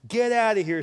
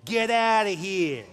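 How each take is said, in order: First: It is said in a normal reading voice. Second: It is said in a put-on mafia voice.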